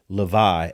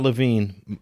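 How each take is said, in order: First: The name ends on a vowel sound. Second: The name ends with an N sound. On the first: The speaker calls it right. "It's Le- Levi" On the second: The speaker calls it wrong. "It's not Levine. I pronounced it Levine earlier"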